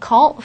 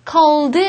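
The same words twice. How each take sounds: First: The final d is dropped. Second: The final d is clearly pronounced. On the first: The speaker calls it right. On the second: The speaker calls it wrong.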